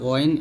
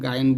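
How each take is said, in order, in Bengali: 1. এটি একটি ভারী গলার gh ধ্বনি দিয়ে শুরু হয়। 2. এটি একটি সাধারণ g ধ্বনি দিয়ে শুরু হয়। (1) "বলতে হবে গইন, এটাই সঠিক। তবে মোটা করে বলতে হবে" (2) "এরকম এরকম গাইন বলি। তো গাইন বলা যাবে না, এটা ভুল"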